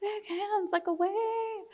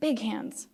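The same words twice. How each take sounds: First: High and soft, waving; high airy. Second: Said in the usual way. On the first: Shown as a demonstration.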